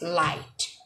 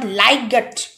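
First: No g sound is pronounced in the word. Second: A g sound is pronounced in the word. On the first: The speaker calls it right. "The correct one is light" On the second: The speaker calls it wrong. "not liget. It's incorrect"

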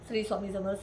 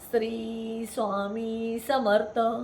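First: The phrase is said quickly and hurriedly. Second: The phrase is said very slowly and deliberately. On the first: The speaker is in a rush to get somewhere. The speaker calls it wrong. "गडबड असते, आपल्याला कुठेतरी जायचं" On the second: The speaker is reciting with full concentration. The speaker calls it right. "असा अगदी हळू आणि एकाग्रतेनं म्हणायचं"

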